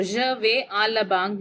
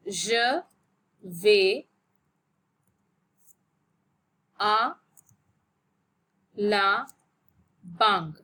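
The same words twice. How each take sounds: First: Said in the usual way. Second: "Je ... vais ... à ... la ... banque", long pause after each word. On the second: Shown as a demonstration. Teacher modelling an example sentence for learners, word by word. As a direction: dictate "Je vais à la banque" one isolated word at a time.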